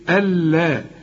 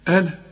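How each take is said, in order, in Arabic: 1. صوت اللام ممدود ومضعّف. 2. صوت اللام قصير، وليس مضعّفًا. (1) "إنما دي إيه ألا" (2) "طب لو فتح ألا"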